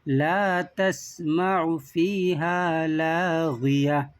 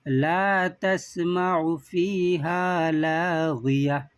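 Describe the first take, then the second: No difference in how they are said.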